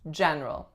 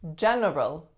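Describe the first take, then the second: First: The middle syllable is dropped. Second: Every syllable is fully pronounced. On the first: "remove that middle syllable that most people will pronounce this word as general" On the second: "this one really looks like it should be general"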